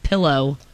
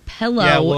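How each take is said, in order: First: The first vowel sounds like 'ih', as pillow. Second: The first vowel sounds like 'eh', as pellow. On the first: This is the standard way of saying it. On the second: This is the local way of saying it.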